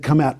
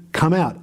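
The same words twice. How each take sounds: First: "Come out" with COME stressed. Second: "Come out" with OUT stressed and falling. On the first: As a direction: punch the word "come". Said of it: "I said". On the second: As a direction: land hard on "out". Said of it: "Jesus literally said". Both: Retold or imitated.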